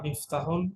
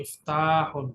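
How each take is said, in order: First: The vowel after 'ft' is short. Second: The vowel after 'ft' is drawn out long. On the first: "টান ছাড়া" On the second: "আবার একটা আলিফ দিয়ে টান সহ"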